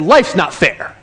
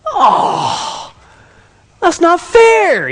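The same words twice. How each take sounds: First: Said in the usual way. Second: High, loud, drawn-out mock teen whine; whining protest. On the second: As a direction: wail it like a punished kid. Son protests the punishment.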